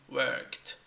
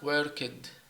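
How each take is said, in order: First: It has no vowel between k and t. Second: It has an extra vowel before the final t. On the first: The speaker calls it right. "It is worked, worked. There is no extra syllable" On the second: The speaker calls it wrong. "this one is not worked"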